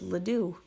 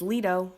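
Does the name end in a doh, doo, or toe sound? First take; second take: doo; doh. First: The name ends in a doo sound. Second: The name ends in a doh sound. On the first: This is a common mispronunciation. The speaker calls it wrong. "A lot of people mispronounce my last name" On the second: This is the correct pronunciation. The speaker calls it right. "It's Lido, like Lido's Pizza"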